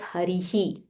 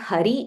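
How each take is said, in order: First: The word ends with an extra breathy 'hi' syllable. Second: The word ends on 'ri' with no added syllable. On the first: The speaker calls it right. "it is Harihi. There is a visarga here" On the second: The speaker calls it wrong. "So it's not Hari"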